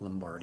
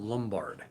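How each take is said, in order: First: The name ends with an added 'ee' vowel. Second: The name ends on a plain 'd' sound. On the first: The speaker calls it wrong. "not Lombardi" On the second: The speaker calls it right. "Carol Lombard"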